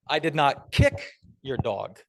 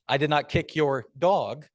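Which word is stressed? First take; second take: kick; dog. First: The stress is on "kick". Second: The stress is on "dog".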